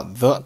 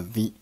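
First: Said in the usual way. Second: "the" as "thee" with a long ee; strong "the". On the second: Shown as a demonstration. Teacher explaining emphasis to learners, "the" pronounced "thee". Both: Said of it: "从而把the读成了the".

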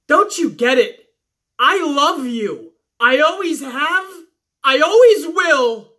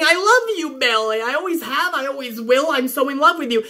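First: Slow, hammed-up declaration of love; a hint of a teary confession, drawn out; mock love confession. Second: Sarcastic quick parody of a love line; mocking love confession. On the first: Sasha confessing love to Bayley, slow hammed-up tender. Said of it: "she says". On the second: Vlogger mocking Sasha's confession to Bayley, sarcastic. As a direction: toss it off with a sneer. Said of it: "it's just Sasha saying".

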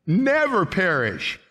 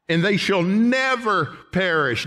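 First: "Never" slow and emphatic; stress on never. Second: "never" held and hit high; stress on never. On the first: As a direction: weigh the word "Never". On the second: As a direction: lean into "never". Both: Shown as a demonstration. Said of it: "Don't you like the word never?".

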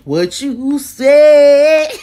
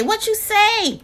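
First: Very slow, loud stretched question; hammed-up slow challenge; drawn-out sassy. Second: Said in the usual way. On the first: Real, not acted. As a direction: drag every word out, teasing. Repeated teasing question.

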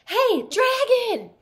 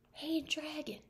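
First: High, very loud, slow yell; loud shout. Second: Hushed, much softer call; soft whisper. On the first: Elizabeth yells right into the sleeping dragon's ear, loud and high. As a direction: bellow it into his ear. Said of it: "She shouted as loud as she could". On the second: Elizabeth checks whether the dragon sleeps, very soft. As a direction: test if he sleeps, barely audible. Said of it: "Elizabeth whispered very softly". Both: Acted.

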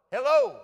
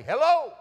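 First: High, louder holler. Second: High, hollered echo from a barn; echo answering back. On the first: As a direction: holler it out toward a faraway barn. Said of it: "you could holler". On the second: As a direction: throw the holler right back. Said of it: "that barn would say". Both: Retold or imitated.

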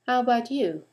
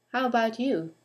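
The two takes are said the same way.

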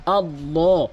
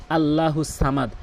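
First: আল্লাহ slow, the হ cut short at the end; correct reading. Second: আল্লাহু সামাদ slow, with a full হু; wrong reading. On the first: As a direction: show the correct আল্লাহ as recitation. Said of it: "বলতে হবে আল্লাহ". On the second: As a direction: demonstrate the common mistake আল্লাহু. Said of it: "অধিকাংশ লোক কী বলে জানেন". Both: Shown as a demonstration.

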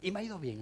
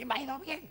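First: Said in the usual way. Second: "bien" pitched much higher with a rise, like a huffy teacher; "y me ha ido bien" snapped back in irritation, rising on "bien"; mock annoyed. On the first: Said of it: "algunos dicen". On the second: Imitating an irritated teacher defending himself, mock cross.

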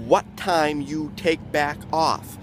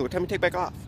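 First: Slowed down. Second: Quick slurred version. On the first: Comic explaining the phrase to the crowd, slow and deliberate. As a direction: lay it out slowly so everyone hears it. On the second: The guy at the bus rattling it off, quick and slurred. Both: Shown as a demonstration. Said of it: "he said it so quickly".

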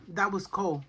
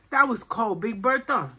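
First: Said in the usual way. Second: Louder exclaimed "That was cold"; shocked exclamation. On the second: Real, not acted. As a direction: exclaim it after a freezing sip. Reacting to an icy drink.

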